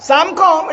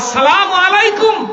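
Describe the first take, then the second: First: The greeting is clipped into a quick slurred form. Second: The greeting is said fully, every syllable clear. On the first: The speaker calls it wrong. "এটা কোন সালাম?" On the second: The speaker calls it right. "ঢুকেই বলবো আসসালামু আলাইকুম"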